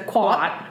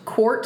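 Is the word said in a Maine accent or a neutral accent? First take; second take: Maine; neutral. First: It is said in a Maine accent without the r. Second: It is said in a neutral accent.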